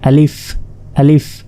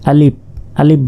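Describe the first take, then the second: First: The word ends with an f sound. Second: The word ends with a p sound. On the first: The speaker calls it right. "আসলে এটা" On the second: The speaker calls it wrong. "অনেকে প এর মতো উচ্চারণ করে, বাংলা প শেষে"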